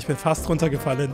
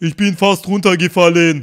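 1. Der Sprecher spricht mit seiner normalen Stimme. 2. Er ahmt den Sprechstil eines Rappers nach.

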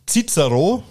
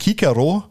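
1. Der Name wird deutsch ausgesprochen. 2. Der Name wird klassisch lateinisch ausgesprochen.

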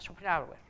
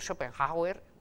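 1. El medio solo tiene una parada breve. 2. El medio tiene un sonido J fuerte, como en español. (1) "la H intercalada apenas se pronuncia, es como una parada" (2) "pueden ustedes pronunciarlo con una J en el medio"

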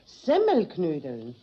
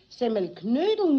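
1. Die Betonung liegt auf Semmel. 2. Die Betonung liegt auf Knödel. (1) "Die Semmel muss man dabei betonen" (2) "Überhaupt das Wichtigste wäre eigentlich der Knödel"

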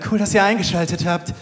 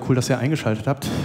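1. Übertrieben und theatralisch, wie aufgesetzt gesprochen. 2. Locker und natürlich, wie im Alltag gesprochen. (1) "Bei dem klingt das immer so" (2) "Der sagt ja nicht so"

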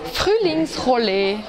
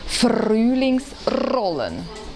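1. Das R wird weit hinten im Rachen gebildet. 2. Das R wird mit der Zungenspitze gerollt. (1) "Französisch Sprechende sagen das R weiter hinten" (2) "Spanisch Sprechende rollen das R"

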